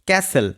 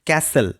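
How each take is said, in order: No difference in how they are said.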